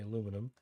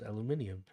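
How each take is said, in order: First: It is said the American and Canadian way. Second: It is said the way the rest of the world does. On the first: The speaker calls it wrong. "That is why Americans say, and Canadians unfortunately say" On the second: The speaker calls it right. "the rest of the world says"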